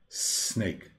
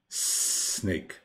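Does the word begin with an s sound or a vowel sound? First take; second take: s sound; s sound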